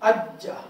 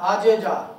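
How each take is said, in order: First: The consonant is held, doubled without a bounce. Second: The consonant bounces, with a break before jaa. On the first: The speaker calls it right. "लेकिन जब शब्द आ जाएगी अज्जा" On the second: The speaker calls it wrong. "यूं नहीं कहना"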